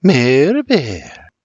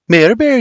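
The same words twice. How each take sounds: First: Slow, drawn-out teasing name; slow seductive whisper. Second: High, quick teasing name; quicker first take. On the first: Mary stares William down, slow and seductive. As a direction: linger seductively over each syllable. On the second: Mary questions William's nickname for her, quick and high. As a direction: say the name briskly, pitched high. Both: A narrator's reading. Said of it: "only slowly and seductively".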